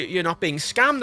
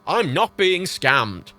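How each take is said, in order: First: Said in the usual way. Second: Slow, emphatic "I'm not being scammed"; pointedly slowed retort; irritated denial. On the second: Retold or imitated. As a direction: drag out each word in exasperation. Irritated answer to bank worker.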